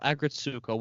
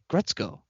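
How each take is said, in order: First: The name is said in full, Americanized. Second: The name is said short, like Gretzko. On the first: This is an easier, Americanized version. The speaker calls it wrong. "probably the American way to say it" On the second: This is how the show itself says it. The speaker calls it right. "as they pronounce in the show, it's something like Gretzko"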